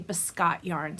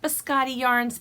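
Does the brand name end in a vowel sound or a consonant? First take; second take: consonant; vowel. First: The name ends with a consonant, no final vowel. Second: The name ends with an added final vowel sound. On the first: This is how most people say it. The speaker calls it right. "but I hear most people say biscot yarns" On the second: This is how the spelling looks to the speaker. The speaker calls it wrong. "To me, it looks like biscotti yarns"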